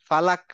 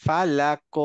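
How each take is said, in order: First: "ফালাক" stopped dead on ক; without qalqalah. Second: "ফালাক" as fa-lak-o, ক rebounding; qalqalah echo. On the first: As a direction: end "ফালাক" with no vowel after ক. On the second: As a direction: bounce off the last ক of "ফালাক". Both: Shown as a demonstration. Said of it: "ফালাক না".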